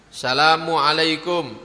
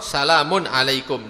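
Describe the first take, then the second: First: The first word ends without an n sound. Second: The first word ends with an n sound. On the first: The speaker calls it wrong. "tidak ada tanwinnya" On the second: The speaker calls it right. "tapi harus ada tanwinnya"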